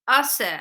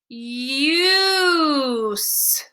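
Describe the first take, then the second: First: The vowel is a short u sound. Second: The vowel is a long u sound. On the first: The speaker calls it wrong. "short U is not working here" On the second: The speaker calls it right. "Let's try long U"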